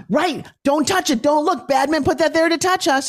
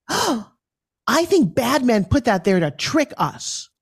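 First: Mock alarm. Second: Put-on high, slow child voice; little girl voice. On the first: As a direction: warn like it's a spooky game. Mock warning game with kids. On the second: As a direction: explain it like a wide-eyed kid. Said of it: "And she said".

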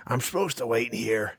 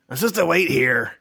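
First: Lightly voiced dwarf, grudging; grudging dwarf mutter. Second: Higher, louder dwarf insisting; insistent dwarf. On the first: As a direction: say it to himself, unsure. Dwarf hesitates, repeats himself. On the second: Acted. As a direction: press the point, louder. Dwarf repeats, more insistent.

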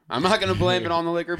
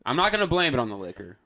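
First: "not" stressed, a little louder and fast; faster, firmer second take; emphatic repeat. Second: Said in the usual way. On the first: Real, not acted. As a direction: insist the line again, leaning on "not". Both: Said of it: "repeated with emphasis".

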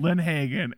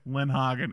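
First: "Lindhagen" said as lin-HAY-gen; mispronounced surname. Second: "Lindhagen" said as lin-HAH-gen; corrected surname. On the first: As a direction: say "Lindhagen" with a long AY in the middle. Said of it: "the cops like, "Who's David?". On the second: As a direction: say "Lindhagen" with an open AH in the middle. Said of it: "And they're just like". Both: Retold or imitated.

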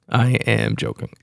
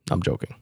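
First: "am" spelled out in full and leaned on; stress on AM. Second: Said in the usual way. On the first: Real, not acted. Podcaster takes back a jab at the comic, stressing "am". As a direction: insist on the word "am". Repeats the disclaimer with emphasis.

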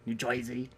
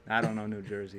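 First: "Jersey" said as "Joisey"; New Jersey accent. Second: Said in the usual way. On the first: Shown as a demonstration. Friends sampling regional accents, "Jersey" as mock "Joisey". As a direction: turn the "er" in "Jersey" into "oy". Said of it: "You hear that sometimes".

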